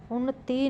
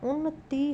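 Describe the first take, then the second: First: उन्नति with a long final ee; wrong pronunciation. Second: उन्नति with a short final i; correct pronunciation. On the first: Teacher showing a spelling error, उन्नति ending long. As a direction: stretch the end of उन्नति to "tee". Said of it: "नहीं". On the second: Teacher explaining the short vowel sign, उन्नति ending short. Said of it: "छोटी ई की मात्रा". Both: Shown as a demonstration.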